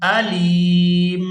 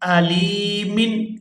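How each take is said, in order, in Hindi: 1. शब्द का आख़िरी हिस्सा सिर्फ़ 'm' की आवाज़ है। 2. शब्द के आख़िर में 'min' अक्षर है। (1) "वक्फ की सूरत अलीम" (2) "मीम दो जेर मिन"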